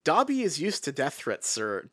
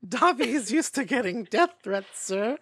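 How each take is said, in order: First: It is said in the speaker's normal voice. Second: It is said in a put-on Dobby voice.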